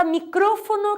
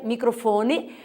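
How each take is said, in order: First: Micrófono said mi-CRÓ-fo-no; Spanish stress. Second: Microfone said mi-cro-FO-ne; Portuguese stress. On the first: Teacher giving the Spanish word, micrófono stressed on CRÓ. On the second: Teacher giving the Portuguese form, microfone stressed on FO. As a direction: lean on FO in microfone. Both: Shown as a demonstration. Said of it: "em português é microfone".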